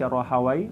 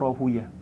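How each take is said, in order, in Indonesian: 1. Nama itu berakhiran bunyi 'wai'. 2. Nama itu berakhiran bunyi 'uyah'. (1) "boleh dibaca Rahawai" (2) "atau Rahuyah"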